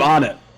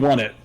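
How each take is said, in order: First: The name begins like the word 'on'. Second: The name begins like the word 'one'. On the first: This is the speaker's own pronunciation. "I do on it" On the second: This is the pronunciation the speaker does not use. "I definitely don't do one it"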